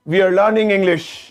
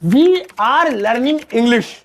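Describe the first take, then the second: First: We and are are joined into one short word. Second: We and are are said as separate words.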